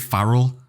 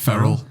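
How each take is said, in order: First: The first vowel is the 'a' of 'far'. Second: The first vowel is the 'e' of 'fair'. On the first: This is a common mistaken version of the name. The speaker calls it wrong. "people always say Farrell" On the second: This is the actual name. The speaker calls it right. "It's Ferrell"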